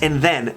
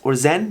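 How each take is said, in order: First: The word begins with a soft th sound. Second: The word begins with a buzzing z sound.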